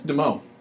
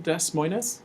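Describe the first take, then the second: First: The s sounds in the name are silent. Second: The s sounds in the name are pronounced. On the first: The speaker calls it right. "We do not pronounce our S's" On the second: The speaker calls it wrong. "Do you let people call our capital Des Moines?"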